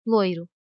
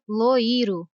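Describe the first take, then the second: First: Loiro with the i glided into the o; correct pronunciation. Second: Loiro with a full i, lo-i-ro; wrong pronunciation. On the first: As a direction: let the i in loiro fade as a glide. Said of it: "e não". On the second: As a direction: give the i in loiro the same force as the o. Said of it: "com a mesma intensidade da letra O". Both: Shown as a demonstration.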